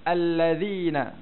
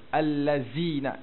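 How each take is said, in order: First: The middle consonant is a non-buzzing sound. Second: The middle consonant is a buzzing z sound. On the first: The speaker calls it right. "Di sini huruf apa? Huruf zal" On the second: The speaker calls it wrong. "Macam tu lah bunyi huruf zai. Allazina. Itu kalau huruf zai"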